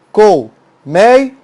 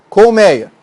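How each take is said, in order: First: "Colmeia" split as col, mei, a; syllable by syllable. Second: Said in the usual way. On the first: Shown as a demonstration. Teacher showing the word's division, syllable by syllable. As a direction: pause after each syllable of "Colmeia". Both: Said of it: "a separação silábica".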